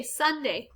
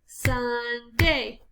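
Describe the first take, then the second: First: Said in the usual way. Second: SUN... DAY in two drawn-out beats; slow, separated SUN-DAY; split into syllables. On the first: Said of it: "listening for how many syllables". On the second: Shown as a demonstration. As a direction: sound out Sunday syllable by syllable. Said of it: "Two syllables".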